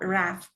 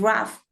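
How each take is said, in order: First: The vowel is an open 'a' sound. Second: The vowel is a short central schwa. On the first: The speaker calls it wrong. "no es con A ... not rough" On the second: The speaker calls it right. "It's a schwa. It's rough"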